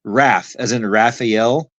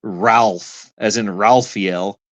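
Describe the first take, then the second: First: RAPH and RAPHAEL said with no L after the A; correct pronunciation. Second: RALPH and RAPHAEL with an L slipped in before the f sound; mispronounced with an L. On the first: Answering what they are saying, Raph pronounced without the L. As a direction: say "Raph" cleanly, short a straight into f. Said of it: "you're saying what". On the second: Showing the speaker the mistake, Raphael pronounced with an added L. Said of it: "You're throwing an L in there". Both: Shown as a demonstration.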